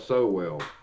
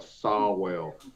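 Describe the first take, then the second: First: The first vowel sounds like 'oh'. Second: The first vowel sounds like 'aw'. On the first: "but not a so well" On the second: "I could see it being a Sawwell"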